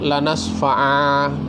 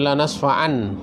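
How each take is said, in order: First: The phrase ends with a long a vowel. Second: The phrase ends with an n sound. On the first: "Seperti lanas fa'a" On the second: "itu kan dari lanas fa'an"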